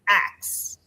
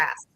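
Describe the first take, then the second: First: The final sounds are swapped, ending in 'ks'. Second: The final sounds are in order, ending in 'sk'. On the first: This is the speaker's home way of saying it. The speaker calls it wrong. "I said ax instead" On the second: This is the form society treats as correct. The speaker calls it right. "of ask"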